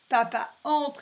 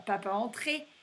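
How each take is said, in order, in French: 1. Le verbe finit sans voyelle finale. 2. Le verbe finit avec un son é ajouté. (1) "papa entre et pas" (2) "pas papa entrer"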